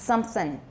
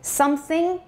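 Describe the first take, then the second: First: The word ends in an 'n' sound. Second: The word ends in an 'ng' sound. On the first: This is the casual, spoken form. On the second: This is the careful, standard form.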